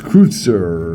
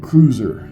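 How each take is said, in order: First: It has a German vowel and a ts sound. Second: It sounds like the English word cruiser. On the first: The speaker calls it right. "But it's Kreutzer or something like that" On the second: The speaker calls it wrong. "in English, you know, we were kind of barbarians. We'd pronounce that cruiser"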